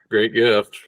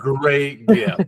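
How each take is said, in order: First: It is said in a flat, unexcited tone. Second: It is said in an excited, lively tone.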